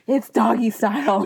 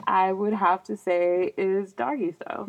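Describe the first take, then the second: First: Said out clearly and a little louder; firm, more projected admission; pushing past shyness. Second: Awkward mumbled admission; half-swallowed, embarrassed answer. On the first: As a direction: repeat it boldly after mumbling. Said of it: "I'm pushing past my introvertedness". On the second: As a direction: mumble it shyly, reluctant to be heard. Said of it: "It sounded like you mumbled a little bit". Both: Real, not acted.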